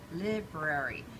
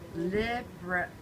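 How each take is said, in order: First: The first syllable has a short 'i' sound. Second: The same.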